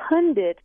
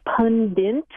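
First: "Pundit" as PUN-dit; "Pundit", ending in a clean -dit; standard pronunciation. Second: "pundit" as PUN-dint; "pundit" ending in -dint; non-standard pronunciation. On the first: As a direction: say "Pundit" with no n before the final t. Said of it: "He sticks an N in there". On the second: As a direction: stick an n before the t in "pundit". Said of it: "I'm hearing people say". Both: Shown as a demonstration.

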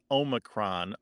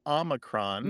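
First: Omicron said "OH-mi-cron"; long-O pronunciation. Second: Omicron said "AH-mi-cron"; short-O pronunciation. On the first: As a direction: start Omicron with a long "oh", as in omega. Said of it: "people tend to think of O as in omega". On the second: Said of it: "Omicron is probably the better pronunciation". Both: Shown as a demonstration.

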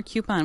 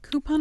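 First: COUPON as "KYOO-pon"; Y glide after the K in COUPON; second variant. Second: COUPON as "KOO-pon"; plain OO in COUPON, no Y glide; first variant. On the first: Host weighs two pronunciations, COUPON as "KYOO-pon". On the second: Host weighs two pronunciations, COUPON as "KOO-pon". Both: Shown as a demonstration. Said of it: "Coupon or coupon?".

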